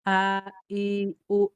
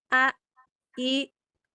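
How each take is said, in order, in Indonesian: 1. Vokal dimulai dari bagian paling bawah tenggorokan. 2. Vokal dimulai lebih atas, bukan dari tenggorokan bagian bawah. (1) "Shad-nya ada di paling bawah, berarti itu menandakan tempat tempat keluarnya" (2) "bukan kayak gini"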